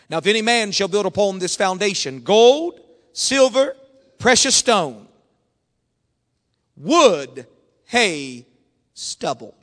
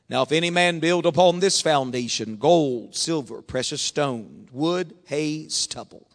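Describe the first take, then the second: First: The passage is read slowly. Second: The passage is read fast.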